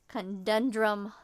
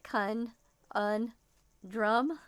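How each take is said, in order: First: The word is said smoothly as one unit. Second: The word is broken into separate syllables.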